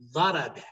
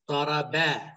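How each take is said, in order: First: The stress falls on the first syllable. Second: The stress falls on a later syllable. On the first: The speaker calls it right. "Genelde vurgu birinci şeyde yoğunlaşır. Birinci hecede" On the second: The speaker calls it wrong. "Bakın şimdi Arap şöyle demez"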